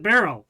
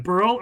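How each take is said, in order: First: "Beryl" with an open "eh", BEH-rul; Beryl pronunciation. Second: "Burl" with an "ur" vowel, like curl; Burl pronunciation. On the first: Asking which name is correct, "Beryl" as BEH-rul. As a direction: say "Beryl" to rhyme with feral. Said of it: "everybody was pronouncing it one way". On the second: Asking which name is correct, "Burl" like curl. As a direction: stress "Burl" as one syllable. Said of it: "pronouncing it one way over the other". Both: Shown as a demonstration.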